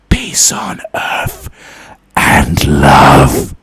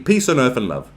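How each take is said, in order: First: It is said in a creepy voice. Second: It is said in an ordinary voice.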